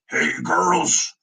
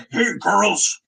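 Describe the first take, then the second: First: Said in the usual way. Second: Loud barking drill sergeant call. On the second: Shown as a demonstration. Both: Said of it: "I imagine he talks like a drill sergeant".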